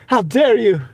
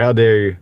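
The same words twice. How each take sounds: First: High, hammed-up "How dare you?" with HOW pushed way up; mock outrage. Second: Said in the usual way. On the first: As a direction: play a scandalised drama queen for laughs. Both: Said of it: "We can do the How Dare You".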